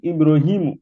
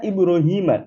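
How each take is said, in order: First: The name ends with a u vowel. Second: The name ends with an a vowel. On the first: The speaker calls it wrong. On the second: The speaker calls it right. "Dibaca Ibrahima"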